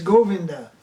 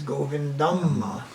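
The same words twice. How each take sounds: First: "Govinda" ending on an open a; North Indian form. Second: "Govindam" slow, with a long final am; South Indian form. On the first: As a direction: say "Govinda" with no final M. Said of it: "In North India". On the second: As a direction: stretch the am ending of "Govindam", softer. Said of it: "In South India". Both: Shown as a demonstration.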